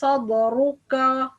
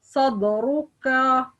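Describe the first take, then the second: The two takes are said the same way.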